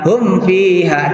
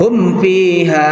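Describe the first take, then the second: No difference in how they are said.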